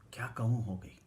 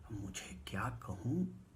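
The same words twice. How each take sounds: First: Said in the usual way. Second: Slow soft whisper. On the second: Real, not acted. Narrator speechless before the note, slow whisper. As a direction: breathe it out, lost for words.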